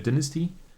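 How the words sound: It is said the British way. "The British apparently say"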